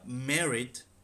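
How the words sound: It is said with a British pronunciation. "the U K is"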